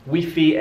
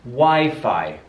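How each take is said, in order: First: The vowels are short and plain. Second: The vowels are long and drawn out. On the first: The speaker calls it wrong. "they're probably going to want to say Wifi and Scifi" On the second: The speaker calls it right. "It's a lot longer sound"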